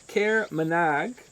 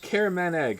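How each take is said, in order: First: The name is split as care plus manage. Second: The name is split as careman plus egg. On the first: The speaker calls it wrong. "you wrote how to say it, but uh, I still said it that way" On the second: The speaker calls it right. "There you go"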